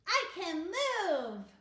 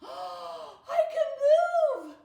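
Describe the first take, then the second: First: It is said in a happy way. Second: It is said in a surprised way.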